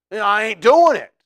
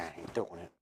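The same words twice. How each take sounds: First: Put-on loud, higher Southern accent, stubborn refusal; Peter's cocky Southern no. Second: Much softer, lower murmur of "I ain't doing it"; inner thought. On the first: Preacher voices Peter refusing to deny Jesus, loud Southern accent. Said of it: "well, that's Southern". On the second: Retold or imitated. Peter thinking to himself quietly, much softer and lower. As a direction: say it to yourself under your breath. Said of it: "He's probably thinking".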